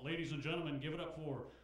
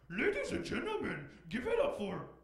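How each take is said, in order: First: It is said in a booming stock announcer voice. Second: It is said in a silly, playful put-on voice. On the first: It sounds like every club announcer. The speaker calls it wrong. "it's always the same voice, you know, like announcer voices at strip clubs" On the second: It sounds original and fun. The speaker calls it right. "Why isn't it ever like anything silly or fun?"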